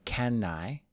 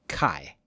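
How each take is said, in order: First: Both words are said fully and separately. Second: The words blend into one short syllable. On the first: "Usually we don't say can I" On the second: "we'll say kai"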